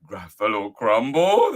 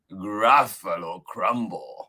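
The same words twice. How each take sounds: First: Louder "Gruffalo Crumble" as a question; loud, rising, alarmed "Gruffalo Crumble"; startled Gruffalo. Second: Slow, deliberate "Gruffalo Crumble"; drawn-out, threatening naming of "Gruffalo Crumble"; menacing mouse. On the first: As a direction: echo "Gruffalo Crumble" in disbelief, rising at the end. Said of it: "the Gruffalo said". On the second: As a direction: announce "Gruffalo Crumble" with relish, falling at the end. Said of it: "The mouse said". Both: Acted.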